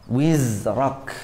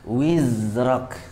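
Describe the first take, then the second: Both takes have the same delivery.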